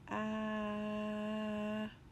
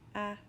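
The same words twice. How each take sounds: First: The sound is stretched out slowly. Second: The sound is said quickly and short. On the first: "My turn to say it slowly" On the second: "My turn to say it fast"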